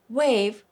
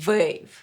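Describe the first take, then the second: First: The word begins with a W sound. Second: The word begins with a V sound.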